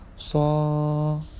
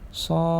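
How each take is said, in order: First: The vowel is drawn out long. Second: The vowel is said short.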